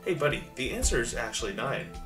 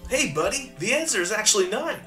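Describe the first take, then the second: First: It is read in a plain, normal voice. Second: It is read in a put-on cartoon character voice.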